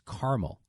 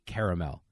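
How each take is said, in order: First: The middle vowel is dropped, giving two syllables. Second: The middle vowel is said, giving three syllables. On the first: The speaker calls it wrong. "They just act like that A is not there" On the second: The speaker calls it right. "because it's spelled C A R A"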